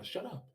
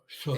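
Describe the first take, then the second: First: The voice sounds weak and feeble. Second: The voice sounds strong and powerful. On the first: He lost his confidence. "why do I sound so weak?" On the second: He felt confident. "It used to sound like Zerka"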